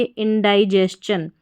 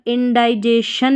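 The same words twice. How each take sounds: First: "इंडाइजेशन" ending in स-चन, not शन; correct pronunciation. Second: "इंडाइजेशन" ending in शन, no स-चन; wrong pronunciation. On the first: Teacher correcting the misreading of indigestion, correct pronunciation. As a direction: say "इंडाइजेशन" as in-dai-jes-chun. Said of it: "नहीं पढ़ेंगे". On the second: Teacher showing learners what not to read, wrong pronunciation. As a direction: say "इंडाइजेशन" as in-dai-jay-shun. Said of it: "इंडाइजेशन नहीं पढ़ेंगे". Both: Shown as a demonstration.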